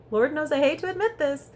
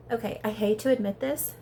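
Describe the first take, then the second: First: Higher, louder "Lord knows I hate to admit this"; dramatic reluctant admission. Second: Measured lead-in to a confession; mildly reluctant concession; reluctant admission. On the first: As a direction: escalate "hate to admit this" with loud, high emphasis. Repeats admission with more drama. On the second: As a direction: admit it grudgingly, rising at the end. First, milder reluctant admission. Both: Real, not acted.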